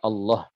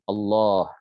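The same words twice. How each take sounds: First: The vowel before the final h is cut short. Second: The vowel before the final h is held long. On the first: The speaker calls it wrong. "jangan dibaca Allah" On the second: The speaker calls it right. "wajib dibaca dengan panjang minimal satu alif atau dua dua harokat"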